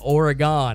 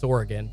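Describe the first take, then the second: First: The word is said in a mocking, altered way. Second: The word is said in a plain, normal way. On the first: The speaker calls it wrong. "I'm just making fun of people that say it incorrectly" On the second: The speaker calls it right. "It's Oregon"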